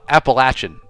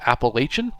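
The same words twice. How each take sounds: First: The word has the pronunciation locals use. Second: The word has the pronunciation outsiders use. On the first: It is the name as residents use it. The speaker calls it right. "Appalachian is the way the locals say it" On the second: It is the name as visitors introduced it. The speaker calls it wrong. "imposed by tourists who wanted to make the area sound more desirable"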